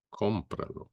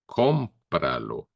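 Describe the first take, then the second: First: Cómpralo repeated much softer. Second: Cómpralo said slowly, stress on the com; Spanish demo. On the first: Teacher to students, soft echo of the word. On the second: Teacher to students, slow model of Cómpralo. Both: Shown as a demonstration. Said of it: "we say in Spanish".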